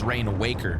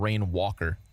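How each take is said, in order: First: The second word sounds like 'waker'. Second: The second word sounds like 'walker'. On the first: "we've all read the word and decided it's Rain Waker" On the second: "people keep messing up and calling him Rain Walker"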